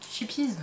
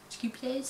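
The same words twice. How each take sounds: First: Chippies said the French way, as "shee-peez"; Frenchified English name, Chippies as "shipiz"; French-style pronunciation. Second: Chippies tried tentatively as "tchi-pyess"; unsure stab at Chippies, softer, ending in "-yess"; attempted true pronunciation. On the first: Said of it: "je le prononce à la française". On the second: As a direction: softly attempt Chippies with a hard first consonant and a "-yess" ending. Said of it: "la vraie prononciation la dernière fois". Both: Real, not acted.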